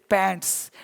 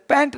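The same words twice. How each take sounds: First: पैंट्स said with a final s, much softer and lower; correct plural form. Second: पैंट said without final s, ending on the t; the rejected form पैंट, no s sound; wrong singular form. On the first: Teacher quietly giving students the right plural. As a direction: drop the voice on पैंट्स and end on the s. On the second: Teacher showing the wrong word for trousers, plain. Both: Shown as a demonstration. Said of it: "इसलिए पैंट नहीं बोलते".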